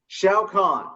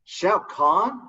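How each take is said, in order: First: "Shao Kahn." with a falling, settled tune; flat confirmation. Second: Rising, doubtful "Shao Kahn?" repeated back; puzzled question. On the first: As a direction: state "Shao Kahn." as if checking it. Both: Retold or imitated. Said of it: "I'm like".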